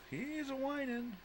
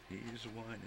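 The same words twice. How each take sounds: First: Very high, whiny voice; mock whine. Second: Said in the usual way. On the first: Owner mimicking her whining dog, very high whine. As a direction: imitate the dog's whine, way up high.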